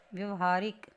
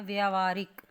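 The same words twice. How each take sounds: First: व्यवहारिक as vyav-haarik, short first vowel; wrong short vowel. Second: व्यावहारिक as vyaav-haarik, first vowel drawn long; correct long aa. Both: Shown as a demonstration. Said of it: "तो क्या होता है".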